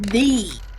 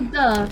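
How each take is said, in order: First: The word is said with strong emphasis. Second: The word is said lightly, without emphasis. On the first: The speaker calls it right. "it's the. You gotta emphasize it" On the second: The speaker calls it wrong. "Don't say the"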